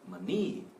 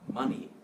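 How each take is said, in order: First: The first vowel is weak and reduced. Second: The first vowel is strong and full. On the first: The speaker calls it wrong. "it's not money" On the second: The speaker calls it right. "Ma is strong"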